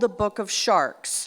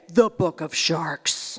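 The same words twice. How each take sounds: First: The title is said in a plain, casual tone. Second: The title is said in a grave, serious tone. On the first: The speaker calls it wrong. "except you couldn't say it like that" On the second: The speaker calls it right. "It was very serious"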